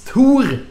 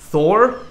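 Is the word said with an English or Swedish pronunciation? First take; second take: Swedish; English. First: The word is said with a Swedish pronunciation. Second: The word is said with an English pronunciation. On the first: The speaker calls it right. "Like it's Thor" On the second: The speaker calls it wrong. "not Thor"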